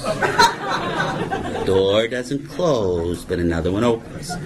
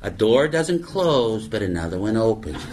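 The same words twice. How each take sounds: First: Very slow, low, drawn-out with a laugh; mock-solemn. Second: Said in the usual way. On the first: Shown as a demonstration. Comic parodying AA cliché, slow mocking drawl.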